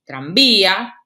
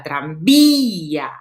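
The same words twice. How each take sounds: First: Said in the usual way. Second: TRANVÍA very slow, the Í stretched and punched; stressed closed vowel. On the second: Shown as a demonstration. Teacher showing where the accent falls, stretched Í in TRANVÍA. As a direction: hold the stressed Í long in TRANVÍA. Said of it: "tienen la acentuación de la palabra".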